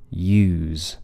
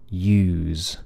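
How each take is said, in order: First: A long vowel followed by a buzzing Z. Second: A long vowel followed by a buzzing Z.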